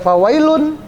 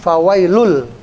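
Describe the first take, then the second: First: The word ends with an n sound. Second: The word ends with an l sound. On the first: The speaker calls it wrong. "nggak boleh lagi dibaca fawailun" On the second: The speaker calls it right. "tapi fawailul"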